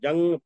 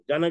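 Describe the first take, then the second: First: The n is only a nasal sound. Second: The n is pronounced as a full consonant. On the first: The speaker calls it right. "जंग पढ़ते हैं" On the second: The speaker calls it wrong. "जनग नहीं पढ़ते"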